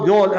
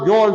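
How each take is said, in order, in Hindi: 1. नाम को एक अक्षर में काट दिया जाता है। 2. नाम को एक अक्षर में काट दिया जाता है।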